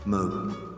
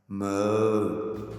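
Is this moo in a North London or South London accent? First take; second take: North London; South London. First: It is said in a clipped North London accent. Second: It is said in a South London accent.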